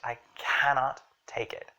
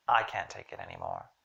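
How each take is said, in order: First: "cannot" said in full with heavy stress; strong emphatic stress on both syllables of "cannot"; exasperated emphasis. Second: "can't" glided across, emphasis saved for "anymore"; stress on ANYMORE. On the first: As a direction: lean hard on "cannot", exasperated. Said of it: "there's some exasperation in it". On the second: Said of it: "my emphasis is actually on the anymore". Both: Shown as a demonstration.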